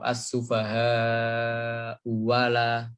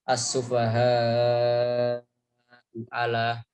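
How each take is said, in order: First: The second hamzah is a w sound. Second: The second hamzah is a glottal stop.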